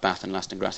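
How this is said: The A vowel is short and flat. This is how northern England says it. "which has a short A sound, rather like an American accent"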